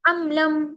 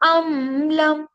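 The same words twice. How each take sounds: First: The m sound is cut off quickly and abruptly. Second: The m sound is drawn out for too long. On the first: "इतना जल्दी नहीं पढ़ते कि चिद्दा जैसी प्रॉपर्टी इसके अंदर आ जाए" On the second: "इतना ज्यादा भी नहीं पढ़ते हैं"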